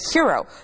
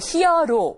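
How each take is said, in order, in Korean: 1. 영어 방식으로, 두 음절로 발음했습니다. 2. 한국어 외래어 방식으로, 세 음절로 발음했습니다. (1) "hero라고 발음하게 되는" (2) "우리 말로 할 적에 또 히어로"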